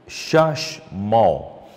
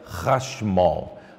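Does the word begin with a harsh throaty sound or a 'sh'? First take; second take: sh; harsh throaty. First: The word begins with a soft 'sh' sound. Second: The word begins with a harsh throaty sound. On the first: The speaker calls it wrong. "seria em português Shashmol" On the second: The speaker calls it right. "tem mais som de R A, mas um R arrastado, um R mais forte"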